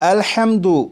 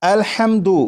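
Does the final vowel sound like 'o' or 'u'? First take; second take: u; u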